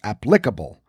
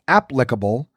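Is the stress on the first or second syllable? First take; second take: second; first. First: The stress is on the second syllable. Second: The stress is on the first syllable. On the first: The speaker calls it wrong. "rather than the second" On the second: The speaker calls it right. "The first syllable is the one that should be emphasized"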